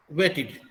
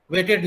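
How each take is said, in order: First: वेटेड ending in "-tid", short i. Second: वेटेड ending in "-ted", open e. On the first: Teacher modelling the right form, वेटेड with an id ending. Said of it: "ईड की तरह करते हैं". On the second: Teacher showing what not to say, वेटेड with an "ed" vowel. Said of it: "ये एड की तरह हम लोग pronounce नहीं करते". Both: Shown as a demonstration.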